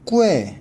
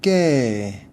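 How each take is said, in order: First: The u is sounded as a separate vowel. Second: The u is silent, giving one syllable. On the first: The speaker calls it wrong. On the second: The speaker calls it right. "이거는 깨"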